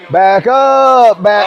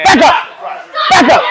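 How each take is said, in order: First: It is said loosely, without force. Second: It is barked sharply and forcefully.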